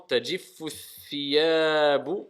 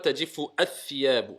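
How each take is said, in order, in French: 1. Les mots s'enchaînent sans voyelle supplémentaire. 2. Une voyelle 'a' supplémentaire est prononcée avant thiyabu. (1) "On fait la liaison directement" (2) "On dit pas"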